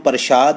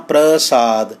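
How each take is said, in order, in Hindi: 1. बीच का व्यंजन 'sh' ध्वनि है। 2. बीच का व्यंजन सादा 's' ध्वनि है। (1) "ਇਹਨੂੰ ਪ੍ਰਸ਼ਾਦ ਨਹੀਂ ਪੜ੍ਹਨਾ" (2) "ਇਸ ਕਰਕੇ ਆਪ ਜੀ ਨੇ ਉਚਾਰਨ ਕਰਨਾ ਹੈ ਪ੍ਰਸਾਦ"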